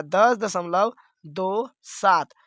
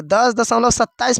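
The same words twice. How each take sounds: First: Slow, say दो then सात as separate digits; slow correct reading, each digit after दशमलव on its own. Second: Said in the usual way. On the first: Shown as a demonstration. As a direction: split the decimal digits apart, slowly. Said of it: "इसको ऐसे पढ़ना है". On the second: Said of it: "पढ़ेंगे तो गलत हो जाएगा".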